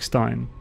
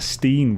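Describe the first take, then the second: First: The word is said with a German pronunciation. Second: The word is said with an American pronunciation. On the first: "Germans pronounce their I as and ei sounds" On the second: "I think Americans would pronounce that Steen"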